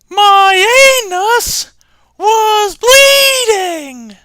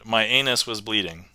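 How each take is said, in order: First: It is said in a high-pitched voice. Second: It is said in a normal voice.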